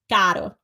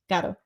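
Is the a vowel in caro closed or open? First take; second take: open; closed. First: The a vowel is wide open, jaw lowered. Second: The a vowel is closed, mouth kept narrow. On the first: The speaker calls it wrong. "It's not like they do ah, because then you would get caro. And they don't say it like that" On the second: The speaker calls it right. "It's caro, caro"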